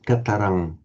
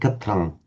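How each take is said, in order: First: The short middle vowel is clearly pronounced. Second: The short middle vowel is left out. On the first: The speaker calls it right. "Although it's a short vowel, it is distinctly pronounced" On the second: The speaker calls it wrong. "A Hindi speaker would tend to omit that vowel"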